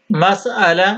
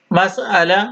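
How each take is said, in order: Both takes have the same delivery.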